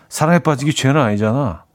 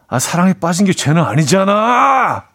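First: It is said in a blunt, curt way. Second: It is said expressively, not bluntly.

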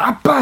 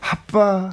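First: It is shouted out loudly. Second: It is murmured softly.

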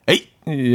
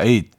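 First: It is said angrily, as an exclamation. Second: It is said calmly, as a plain word.

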